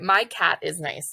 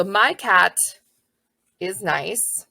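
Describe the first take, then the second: First: Slow, word by word; slow dictation. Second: Said in the usual way. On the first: Shown as a demonstration. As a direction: read it like a child sounding out. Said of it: "this kiddo is gonna write".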